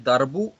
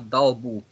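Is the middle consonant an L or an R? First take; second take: R; L. First: The middle consonant is an R sound. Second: The middle consonant is an L sound. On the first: The speaker calls it right. "Иногда говорите не «дарбу»" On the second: The speaker calls it wrong. "а «далбу». «Далбу» — это чуть-чуть другое слово"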